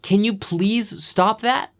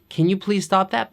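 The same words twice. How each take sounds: First: It is said in a frustrated, angry tone. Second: It is said in a calm, neutral tone. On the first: The person has run out of patience. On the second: This is a simple polite request.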